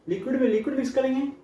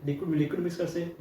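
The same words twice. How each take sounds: First: "liquid में liquid" lifted higher and pushed out; emphatic. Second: Said in the usual way. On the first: Shown as a demonstration. Teacher marks the case students must study, emphatic and higher. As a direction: stress this as the chosen case, "में" held high.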